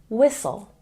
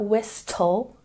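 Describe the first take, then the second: First: No T sound is heard in the middle. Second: A T sound is pronounced in the middle. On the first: The speaker calls it right. "two silent letters, the H and the T" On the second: The speaker calls it wrong. "It's not whistle"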